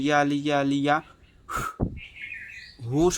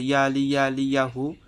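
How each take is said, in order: First: The final word is released as a puff of breath. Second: The final word is spoken with a normal voice. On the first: The phrase itself becomes the blow. The speaker calls it right. "শব্দটাই ফু আকারে ছেড়ে দেবেন" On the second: The phrase is said plainly before blowing. The speaker calls it wrong. "শুধু বলেন"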